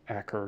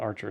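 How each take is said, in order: First: The middle consonant is a 'k' sound. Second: The middle consonant is a 'ch' sound. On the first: The speaker calls it right. "It's like Acker or something" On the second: The speaker calls it wrong. "but it's not Archer"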